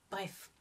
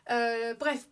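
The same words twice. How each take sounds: First: Hushed, slow-paced aside; talking very quietly. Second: Said in the usual way. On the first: Real, not acted. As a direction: keep it down so the cats won't hear. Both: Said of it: "je parle tout bas".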